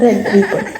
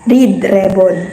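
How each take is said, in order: First: The first word has a short 'e' vowel. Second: The first word has a long 'ee' vowel. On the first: The speaker calls it right. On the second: The speaker calls it wrong.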